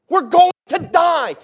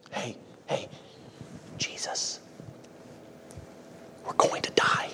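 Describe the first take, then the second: First: High, slow, drawn-out cry of alarm; intense panicked shout. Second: Hushed whisper, pretending to wake someone gently; mock timid whisper. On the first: Acted. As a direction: shout it out as if in mortal danger. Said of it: "probably some intensity there". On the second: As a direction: whisper the alarm as if afraid to disturb. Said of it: "that's how everybody would react".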